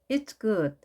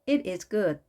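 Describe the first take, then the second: First: The verb is contracted onto the pronoun. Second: The verb is said as a full separate word.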